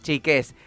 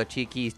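First: "chiques" con la e final marcada, un poco más agudo; lenguaje inclusivo en broma. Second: Said in the usual way. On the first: Shown as a demonstration. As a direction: corrige "chiquis" por "chiques" remarcando la e. (se corrige con guiño al lenguaje inclusivo, "chiques")

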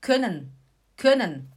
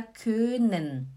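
First: "können" quick, with a short ö; short vowel, double N. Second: "können" slowed, with a long stretched ö; long vowel, single N. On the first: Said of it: "Como tem dois N's". ("können" rápido, com ö curto) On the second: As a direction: drag "können" out as if it had one N. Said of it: "Se tivesse só um N". ("können" lento, com ö bem longo) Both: Shown as a demonstration.

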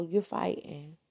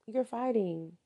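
First: Said in the usual way. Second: You're fighting. repeated higher, pressing the point; emphatic repeat. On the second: Real, not acted. Speaker warning about abuse, emphatic. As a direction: hit "fighting" again to drive it home. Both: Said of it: "repeated for emphasis".

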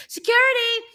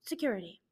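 First: Loud, high call for help; raised-voice summons, pitched way up. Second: Low, soft repeat of a call; hushed, falling little summons; quiet call. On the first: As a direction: shout it high to summon a guard. Calls out for security. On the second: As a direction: say it low and small. Repeats the call, much softer. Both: Acted.

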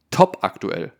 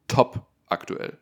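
First: Said in the usual way. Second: "Top aktuell" whispered, slow. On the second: Shown as a demonstration.

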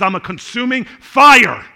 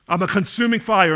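First: Voice of God. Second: Said in the usual way. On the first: Acted. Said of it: "God says".

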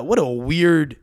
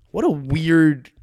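First: Said in the usual way. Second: What a weird, each word stretched out slowly; slow drawn-out emphasis. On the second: Real, not acted. Musing on the striker, drawn-out wondering slowness. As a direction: drag out what a weird to savour it. Speaker restates the phrase.

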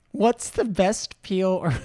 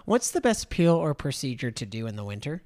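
First: Higher, louder, laughing through the question. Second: Said in the usual way. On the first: Real, not acted. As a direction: start reading the question and crack up. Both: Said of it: "I don't know why I'm laughing so much".

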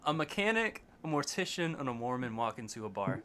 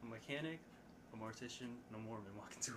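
First: Leaning into the mic. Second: Very faint, far from the mic; too far from the mic. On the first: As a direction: clear and close to the mic. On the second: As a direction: say it away from the mic. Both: Real, not acted. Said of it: "lean into the mic and give us that one again".

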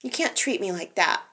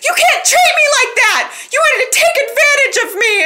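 First: Meek, much softer reading; Summer's first half-hearted try, quiet and meek; timid first try. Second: High, loud hammed-up yell; Summer finally shouting it at the man with full force; mock outburst. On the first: Retold or imitated. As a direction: say it meekly, barely there. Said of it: "Summer's just like". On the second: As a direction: belt it out like a melodramatic outburst. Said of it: "And Summer just says".

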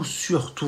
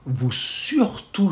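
First: Surtout repeated much softer, almost to oneself; hushed repeat of surtout; soft echo. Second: Surtout drawn out slowly, pitched higher; insistent surtout, stretched out; emphatic surtout. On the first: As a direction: let surtout fall away quietly. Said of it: "echo of the insistence". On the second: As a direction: lean hard on surtout, slow and high. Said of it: "insists on keeping pits". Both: Shown as a demonstration.

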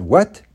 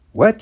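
First: A short, slightly raised what; mock surprise. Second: High, rising what, acted astonished; hammed-up disbelief. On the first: Man playing innocent to the sheriff, mock surprise. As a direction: feign mild surprise. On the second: Man playing innocent to the sheriff, hammed-up disbelief. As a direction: push the fake shock up high. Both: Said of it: "Then I started to act really worried".

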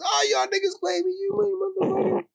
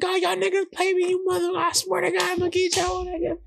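First: High-pitched imitation of a furious cuss-out; high mock rage; mock angry cussing. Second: High-pitched furious threat, imitated; high mock cuss-out, fading at the end; mock angry cussing. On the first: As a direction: squeal the curse like a betrayed friend running off. John cussing while running away. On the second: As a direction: shriek the threat while running away. John cussing while running.

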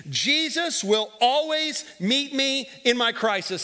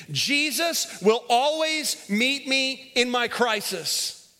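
First: Slow, deliberate call for the congregation; leading the phrase. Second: Very slow, every word drawn out; slower call and response. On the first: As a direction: spell it out so they can follow. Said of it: "say this phrase with me". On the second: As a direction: stretch it so the room says it in unison. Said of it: "Say that with me". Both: Shown as a demonstration.

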